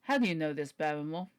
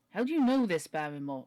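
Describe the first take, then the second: First: Put-on lower-pitched question in Sir Henry's proper accent; corrected accent for Sir Henry. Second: Put-on wrong accent for Sir Henry. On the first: Sir Henry questions butler Barrymore, in his corrected accent. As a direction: retake it lower, back in the character's accent. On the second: Sir Henry questions butler Barrymore, voiced in the wrong accent. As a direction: slip into another character's accent, pitched up and forceful. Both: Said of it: "wrong accent".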